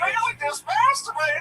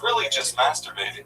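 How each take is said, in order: First: It is said in a weird, put-on character voice. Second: It is said in a plain, normal voice.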